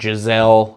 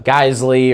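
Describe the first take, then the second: First: The name sounds like the name Giselle. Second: The name does not sound like Giselle. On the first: The speaker calls it wrong. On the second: The speaker calls it right.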